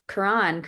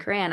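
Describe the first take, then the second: First: Quran said "kuh-RAHN", stressed second syllable; unsure pronunciation. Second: Quran said quickly as "kran", with a short "a"; second-guessed pronunciation. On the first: Speaker unsure of the holy book's name, tentative pronunciation of Quran. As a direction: say Quran with an open "ah" in the end. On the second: Speaker correcting the holy book's name, hesitant pronunciation of Quran. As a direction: try Quran with a flatter "a" as in "ran". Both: Shown as a demonstration. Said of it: "don't know if I'm saying that right".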